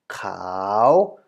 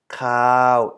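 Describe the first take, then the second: First: The pitch rises toward the end. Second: The pitch stays level in the middle. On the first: "it is now cow" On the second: "instead of cow"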